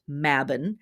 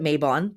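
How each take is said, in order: First: It is said with the original pronunciation. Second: It is said with the American pronunciation. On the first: The speaker calls it right. "The word is actually pronounced" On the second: The speaker calls it wrong. "here in America, we're taught to pronounce it"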